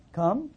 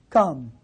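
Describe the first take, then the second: First: "Come." much softer, a gentle rising invitation; "Come." eased down and lifted at the end, tender. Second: A single word dropped low and solemn; "Come." said low and weighty, like a divine call; solemn deep command. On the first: Same word, softened. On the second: God's one word, repeated. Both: Acted.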